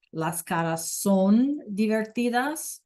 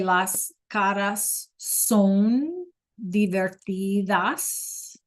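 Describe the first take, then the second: First: A little slower than normal, clear; slow repeat. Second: Drawn out word by word for the class; very slow model sentence. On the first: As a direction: repeat it once more, slightly slowed. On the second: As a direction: spell it out slowly so students can follow. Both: Shown as a demonstration.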